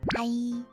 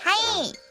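First: The greeting is said quietly. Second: The greeting is said loudly. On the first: The speaker calls it right. "작게 말해야겠다" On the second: The speaker calls it wrong. "내가 너무 크게 말했나?"

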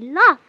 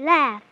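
First: The vowel sounds like the one in 'off'. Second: The vowel sounds like the one in 'half'. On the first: The speaker calls it wrong. "you shouldn't say laugh" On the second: The speaker calls it right. "You should say laugh"

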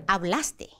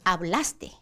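The two takes are said the same way.

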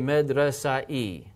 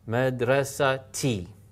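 First: The ending follows the vowel with no t sound. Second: A clear t sound comes before the ending. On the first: The speaker calls it wrong. "you don't say medresa e" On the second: The speaker calls it right. "because this is now a ta"

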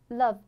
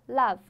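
First: The vowel is short with a slight mouth opening. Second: The vowel is a wide open Chinese-like ah. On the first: The speaker calls it right. "开口度是比这个要小一点点，比中文拼音的啊小一点点" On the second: The speaker calls it wrong. "这个地方你如果发成中文的啊，就变成love love。Love 就很难听"

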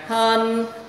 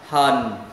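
First: The pitch stays high and level. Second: The pitch dips low and comes back up. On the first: "Thanh 1 đọc ngang hân" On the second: "thanh 3 xuống rồi lên"

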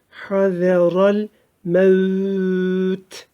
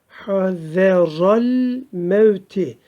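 First: The last word is stretched and stops without 'i'. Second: The last word ends with a short 'i' vowel. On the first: The reading stops at this word. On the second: The reading continues without a stop.

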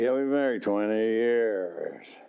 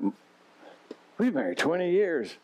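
First: It sounds weary and resigned. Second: It sounds happy and proud.

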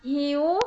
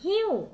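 First: The pitch rises from low to high. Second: The pitch falls from high to low. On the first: "เสียงจัตวา" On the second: "เสียงโท"

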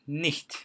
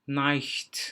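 First: The vowel is pronounced as a short 'i' sound. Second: The vowel is pronounced like the English word 'eye'. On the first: The speaker calls it right. "I Almanca'da i olarak okunur" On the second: The speaker calls it wrong. "İngilizce'de I diye okunduğundan nicht diye okunuyor. Bu kesinlikle yanlıştır"

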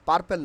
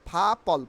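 First: It starts with a plain, unaspirated p sound. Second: It starts with a breathy, aspirated p sound. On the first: The speaker calls it wrong. "পার্পেল না" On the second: The speaker calls it right. "ফয়াকারে ফা পল"

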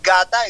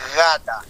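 First: It begins with a hard, stopped g sound. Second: It begins with a soft, gliding g sound. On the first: The speaker calls it wrong. "It's not gata" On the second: The speaker calls it right. "go with a water sound"

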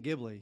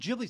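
First: The start does not sound like 'giblets'. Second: The start sounds like the word 'giblets'. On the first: "I always say Ghibli" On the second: "because Ghibli sounds like giblets"

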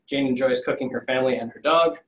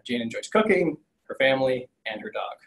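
First: The words run on with no pause after 'cooking'. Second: The words break with a pause after 'cooking'. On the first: Jane likes to cook her family and her dog. The speaker calls it wrong. "Use a comma, save a life" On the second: Jane likes cooking, and she likes her family and her dog. The speaker calls it right. "This probably is supposed to be saying"

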